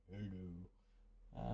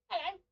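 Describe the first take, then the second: First: Much lower, softer, croaky-cold "Hello."; deep voice. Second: Much higher squeaky "Hello."; high-pitched try. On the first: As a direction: drop low as if with a chest infection. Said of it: "I can go deep when I've got". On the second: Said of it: "I can't actually go high pitched". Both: Shown as a demonstration.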